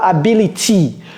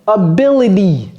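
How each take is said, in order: First: The middle t is a full t. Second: The middle t is a quick flap. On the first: The speaker calls it wrong. "c'est pas ability" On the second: The speaker calls it right. "Ability, ability"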